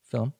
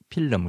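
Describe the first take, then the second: First: The word is said as one syllable. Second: The word is split into two syllables. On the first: The speaker calls it right. "하나의 소리입니다" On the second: The speaker calls it wrong. "필름 이렇게 두 개로 했으니까는"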